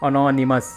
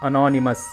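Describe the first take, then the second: Both takes have the same delivery.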